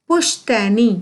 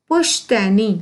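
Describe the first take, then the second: No difference in how they are said.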